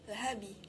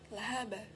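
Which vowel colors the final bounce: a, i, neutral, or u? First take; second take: i; a. First: The final b bounces toward an i vowel. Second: The final b bounces toward an a vowel. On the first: "atau lahabi" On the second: "Tidak boleh kita mengucapkan lahaba"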